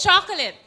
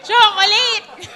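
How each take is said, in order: First: Chocolate as "CHAH-kuh-lit"; chocolate with weak last vowels; English chocolate. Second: Loud, high, slow "CHO-ko-LAYT"; chocolate stretched to a long "layt"; Filipino-style chocolate. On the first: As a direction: hit the first syllable of chocolate, short ending. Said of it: "It's chocolate". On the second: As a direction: belt out chocolate with every syllable full. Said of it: "But you hear that". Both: Shown as a demonstration.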